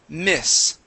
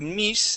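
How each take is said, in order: First: The vowel is a short i sound. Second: The vowel is a long ee sound. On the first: The speaker calls it right. "that's the short I sound" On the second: The speaker calls it wrong. "a Spanish I"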